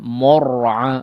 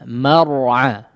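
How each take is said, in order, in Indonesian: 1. Vokal pertama tebal dan bunyinya seperti o. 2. Vokal pertama tipis dan bunyinya seperti a. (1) "mimnya yang jadi menebal" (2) "tapi akhra akh a akhra ma mar'a ya"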